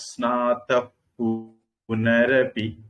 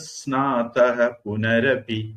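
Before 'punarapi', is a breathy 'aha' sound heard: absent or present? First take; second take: absent; present. First: No breathy ending; the p is soft, lips apart. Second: A breathy 'aha' ending is heard before punarapi. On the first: "உதடு ஒட்டாம பாவ சொல்லணும்" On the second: "விசர்க்கத்தை சொல்லி புனரபின்னு சொல்லணும்"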